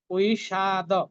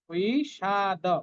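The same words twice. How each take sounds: First: The word ends in a full da syllable. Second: The word ends in a full da syllable.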